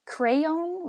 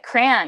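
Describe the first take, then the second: First: Said in the usual way. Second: "crayon" squashed into one syllable, "cran"; Michigan pronunciation. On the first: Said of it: "We say it like crayon". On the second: Shown as a demonstration. Showing the Midwestern accent to a friend, "crayon" said as one-syllable "cran". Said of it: "a few words that really pointed out".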